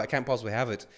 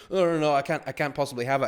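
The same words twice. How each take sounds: First: Said in the usual way. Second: Mock refusal. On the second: Imitating reluctant receiver.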